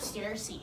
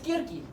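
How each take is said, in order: First: The name begins with an S sound. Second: The name begins with a K sound. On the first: The speaker calls it wrong. "everybody's been saying wrong" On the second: The speaker calls it right. "It's how you actually say it. It's K I P Greek R K N E"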